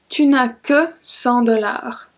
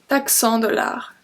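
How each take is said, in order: First: The full form with 'ne' is pronounced. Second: The 'ne' is dropped and 'tu' shortened.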